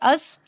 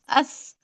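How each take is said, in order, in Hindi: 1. अंतिम ध्वनि साधारण, फुफकारने वाली s की है। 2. अंतिम ध्वनि th की है, जीभ दाँतों के बीच। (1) "नॉर्मल सीन अस होता है, देखिए अस" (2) "स से आपको पढ़ना है तो अस अस अस अस"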